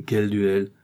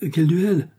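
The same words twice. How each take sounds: First: Said in the usual way. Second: Higher and louder second ask; emphatic repeat. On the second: Acted. Mother-in-law demands which duel, higher and louder. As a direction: press the question hard.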